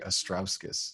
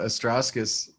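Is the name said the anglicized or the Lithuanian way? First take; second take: Lithuanian; anglicized. First: The name is said in the Lithuanian way. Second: The name is said in an anglicized way. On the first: This is the original form of the name. "But the Lithuanian, uh, it's actually Astrauskas" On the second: This is how the family says it. "That was how my family kind of pronounced it"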